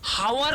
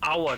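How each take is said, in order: First: The word begins with an h sound. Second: The word begins with a vowel sound. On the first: The speaker calls it wrong. "हावर उच्चारण नहीं करते" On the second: The speaker calls it right. "लेकिन हम यहां पर उच्चारण करें आवर"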